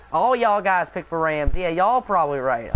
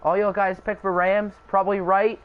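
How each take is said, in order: First: Playful Texan twang; light put-on Texan accent. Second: Said in the usual way. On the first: Shown as a demonstration. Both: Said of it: "I had to do the Texan accent".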